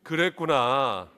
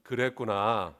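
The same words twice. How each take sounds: First: Slow, drawn-out 그랬구나 with falling tune; slow empathetic 그랬구나 to a neighbour. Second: Empathetic. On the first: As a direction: stretch 그랬구나 gently to comfort the person beside you. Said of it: "옆에 있는 분에게 한번 그렇게 해보세요". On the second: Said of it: "한번 따라해보겠습니다". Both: Shown as a demonstration.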